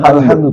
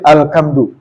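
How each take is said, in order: First: The middle consonant is a breathy h sound. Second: The middle consonant is a hard k sound. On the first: The speaker calls it right. "bukan alhamdu" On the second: The speaker calls it wrong. "tapi alkamdu"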